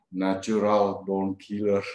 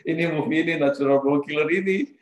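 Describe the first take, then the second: First: Slow, weighted film title, lightly voiced coworker; slow ominous title. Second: Higher, louder, stunned echo of the title; shocked repeat. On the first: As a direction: let the title hang, slow and heavy. Coworker names violent film. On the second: Real, not acted. Teller recalling his shock at the film, surprised. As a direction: react in disbelief to the film's name.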